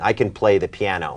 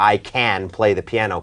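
First: The word can is weak and reduced. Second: The word can is strong and fully stressed. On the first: The speaker calls it right. "เราจะพูดว่า" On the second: The speaker calls it wrong. "ไม่ได้บอกว่า ... ขนาดนั้น"

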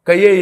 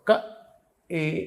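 First: The vowel is joined to ka with a y-glide. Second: The vowel is kept separate with no glide. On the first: The speaker calls it wrong. "అది యా యా చదువుతున్నాడు వాడు, తాలువుతో చదువుతున్నాడు" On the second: The speaker calls it right. "క ఏ ఇక్కడ నుంచి పలకాలి, ఏ అనాలి"

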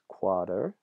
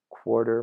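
First: No r sound follows the first vowel. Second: An r sound follows the first vowel.

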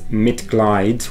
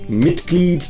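First: The vowel in the second part sounds like 'eye'. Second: The vowel in the second part sounds like 'ee'. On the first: The speaker calls it wrong. "mispronounce that and pronounce it as Mitglied, which is incorrect" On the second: The speaker calls it right. "A good example would be the word Mitglied"

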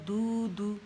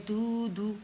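No difference in how they are said.

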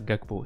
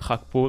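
First: The G is a hard stop sound. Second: The G is a rough throaty sound. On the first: The speaker calls it wrong. "je peux pas me permettre de dire Gakpo" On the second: The speaker calls it right. "C'est un G"

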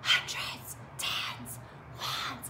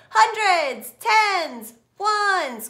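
First: The words are whispered very quietly. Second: The words are shouted very loudly. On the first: "we're gonna whisper like it's a secret" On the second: "Now shout it"

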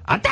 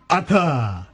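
First: The pitch of the word rises. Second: The pitch of the word falls. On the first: "イントネーション上げるんじゃなく" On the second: "下げてたところだわ"

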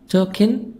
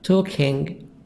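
First: The final g sound is dropped. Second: The final g sound is pronounced. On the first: "we make sometimes the g silent" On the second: "Instead of saying"

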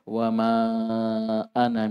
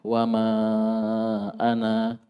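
First: The final vowel of ana is short. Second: The final vowel of ana is long. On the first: The reading continues without stopping. "Ana pendek" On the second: The reading stops at this word. "Alifnya dibaca"

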